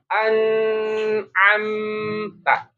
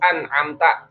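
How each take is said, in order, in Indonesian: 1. Bunyi n mengalir terlalu lama. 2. Bunyi n dihentikan dan ditahan. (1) "enggak juga an amta" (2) "Jadi enggak an amta"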